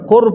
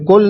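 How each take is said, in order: First: The word ends with an R sound. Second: The word ends with a clear L sound. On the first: The speaker calls it right. "कुर पढ़ा जाएगा। ... लाम साइलेंट हो जाएगा" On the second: The speaker calls it wrong. "ये कुल नहीं पढ़ा जाएगा"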